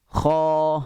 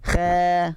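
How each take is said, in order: First: The sound is heavy with the mouth rounded full. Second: The sound is light with the mouth spread wide. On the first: The speaker calls it right. "yang tafkhim tu, buka dia kembung" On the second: The speaker calls it wrong. "dia bukan kha. Dia tak boleh buka ke tepi"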